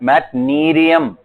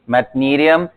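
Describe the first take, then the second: First: "मैटनेरियम" with a crisp retroflex t in "मैट"; teacher models "मैटनेरियम" with the t in "मैट" clearly sounded. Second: Said in the usual way. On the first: Shown as a demonstration. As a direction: model the word, landing the t in "मैट". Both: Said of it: "मैट टी है वहां पे".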